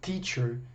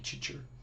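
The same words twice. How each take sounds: First: The T is a dry, plain T sound. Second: The T is said like a 'ch' sound. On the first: The speaker calls it right. "No inglês é um T mais seco" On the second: The speaker calls it wrong. "esse tch, tch que a gente faz no português"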